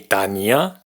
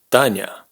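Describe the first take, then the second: First: A separate i vowel follows the consonant. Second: A soft consonant runs straight into a. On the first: The speaker calls it wrong. "ni Tania" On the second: The speaker calls it right. "sino Tanya"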